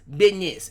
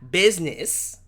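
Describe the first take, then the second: First: The word is said in a casual slangy pronunciation. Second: The word is said in careful standard pronunciation. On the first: The speaker calls it right. "No, it's business" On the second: The speaker calls it wrong. "It's not business. Don't don't get proper with me"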